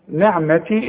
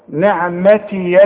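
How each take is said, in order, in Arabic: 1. الكلمة تنتهي بالياء دون حركة تتبعها. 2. الياء الأخيرة عليها فتحة. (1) "نعمتي إذا وقفت" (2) "انما اذا وصلت الياء مفتوحة"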